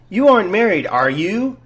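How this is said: The voice rises at the end.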